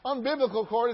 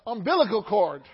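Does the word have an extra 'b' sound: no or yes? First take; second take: yes; no. First: The word has an extra b sound inside. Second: The word has no extra b sound inside. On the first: The speaker calls it wrong. "it's not umbiblical cord" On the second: The speaker calls it right. "it's the umbilical cord"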